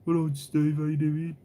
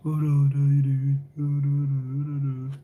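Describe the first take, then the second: First: Brummie greeting. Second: Very slow, slurred Brummie greeting; drugged-up Brummie. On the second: Streamer mocking a Brummie greeting to Steve, slow slurred drawl. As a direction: drag the Brummie hello out as if drugged up. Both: Retold or imitated. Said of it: "I sound like I'm constantly, like, drugged up".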